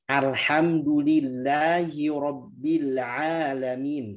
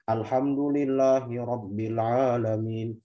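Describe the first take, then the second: First: The vowels are stretched with exaggerated mouth movement. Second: The vowels are cramped with too little mouth opening. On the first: "Itu berlebihan" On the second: "Yang salah atau yang kurang"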